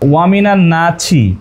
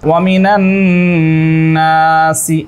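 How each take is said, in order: First: The second word starts with a 'ch' sound. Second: The second word starts with an 's' sound. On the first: The speaker calls it wrong. "আমি যদি এখানে পড়ি ওয়ামিনা নাছি" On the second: The speaker calls it right. "আরবি কি আছে দেখুন তো, ওয়ামিনা নাসি এইভাবে আছে"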